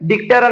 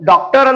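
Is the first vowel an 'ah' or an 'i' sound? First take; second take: i; ah. First: The first vowel is a short 'i' sound. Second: The first vowel is an open 'ah' sound. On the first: The speaker calls it wrong. "ಡಿಕ್ಟರ್ ಅನ್ನಲ್ಲ" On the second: The speaker calls it right. "ನಾವು ಡಾಕ್ಟರ್ ಅಂತ ಹೇಳ್ಬೇಕಾದ್ರೆ"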